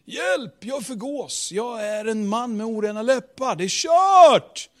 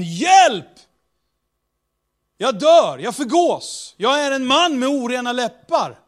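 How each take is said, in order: First: Panicked wail. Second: Panicked cry. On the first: Retold or imitated. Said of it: "för några sekunder sedan". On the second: Acted. Isaiah cries out in despair.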